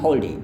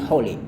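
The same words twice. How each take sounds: First: The d sound in hold is heard. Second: The d sound in hold is dropped. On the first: "Tapi kebanyakan juga yang bilang hold it" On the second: "ini juga sama. Kadang juga mereka bilang hold it"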